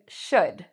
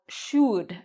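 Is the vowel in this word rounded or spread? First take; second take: spread; rounded. First: The vowel is short, with spread lips. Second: The vowel is said with rounded lips. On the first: The speaker calls it right. "But that's not what I'm saying. I'm saying should" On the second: The speaker calls it wrong. "If I said this word with rounded lips"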